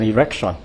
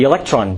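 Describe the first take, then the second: First: The word is said with an R replacing L. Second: The word is said with a clear L sound.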